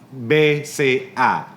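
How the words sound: The letters are spoken with Indonesian letter names.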